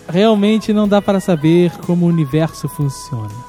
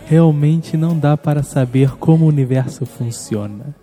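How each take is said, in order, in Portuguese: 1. É dito com uma voz normal, do dia a dia. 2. É dito com uma voz fingida e incomum. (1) "com a sua voz normal" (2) "você não fala assim comigo com esta voz"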